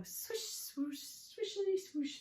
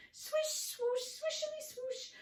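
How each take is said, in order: First: High, airy swishing chant; broom setting off. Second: Very high, racing swish chant; faster and faster. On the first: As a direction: swish along before speeding up. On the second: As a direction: squeak it out at top speed. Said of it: "faster, faster". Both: Acted.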